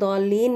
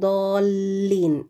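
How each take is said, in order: First: The L sound is short and single. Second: The L sound is doubled and held long. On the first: The speaker calls it wrong. "नहीं" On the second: The speaker calls it right. "लाम पे आपने स्ट्रेस लगा के पढ़ना है"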